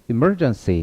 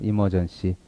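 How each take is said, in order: First: One syllable carries clear, strong stress. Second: The syllables are even, with weak stress. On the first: The speaker calls it right. "그러지 마시고 emergency. 그래서 강세를 이렇게 주시면 돼요" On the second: The speaker calls it wrong. "강세 잘 안 나오면 이렇게 들립니다. 네, 한국 사람이죠"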